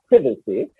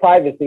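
First: The word is said the British way. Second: The word is said the American way. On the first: This is how the speaker would say it at home in the UK. "and not privacy" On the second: The speaker adapted his speech for an American audience. "he's changed his words for y'all, because he said privacy"

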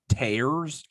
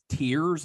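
First: The vowel sounds like the one in 'cares'. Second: The vowel sounds like the one in 'fears'. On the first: It refers to ripping something apart. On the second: It refers to crying.

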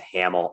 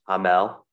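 First: The name is said with an American pronunciation. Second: The name is said without an American pronunciation. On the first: The speaker calls it wrong. "I'm going to Americanize that to Hamel" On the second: The speaker calls it right. "It's Hamel"

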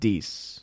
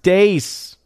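First: The vowel sounds like the 'ee' in 'see'. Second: The vowel sounds like the 'ay' in 'day'. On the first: This is how the speaker prefers to say it. "I'm still going to pronounce it Deese" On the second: This is how the name is really pronounced. "It's pronounced Dace"

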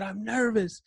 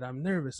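First: It is screamed out at full volume. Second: It is said in a louder voice.

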